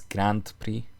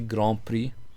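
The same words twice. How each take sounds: First: It is said with an English pronunciation. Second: It is said with a French pronunciation. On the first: "In English, obviously, it's" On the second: "I'm pronouncing it the French way"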